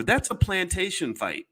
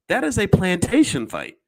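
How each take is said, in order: First: Said in the usual way. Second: Louder, stress on "is" in "That is a plantation fight"; emphatic repeat. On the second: Shown as a demonstration. Repeating it to the audience, louder with stress on "is". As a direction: hit "is" hard, each word weighted.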